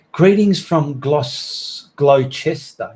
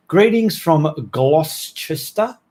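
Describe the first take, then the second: First: Gloucester said as GLOSS-ter, two syllables, slowly; corrected pronunciation. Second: Gloucester said slowly as GLOSS-ter-ster, spelled out; misread spelling. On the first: To viewers from Gloucester, say Gloucester as GLOSS-ter. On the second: Reading a viewer's town wrong, Gloucester spelled out slowly. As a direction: read Gloucester letter by letter. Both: Shown as a demonstration. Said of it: "it's properly pronounced Gloucester".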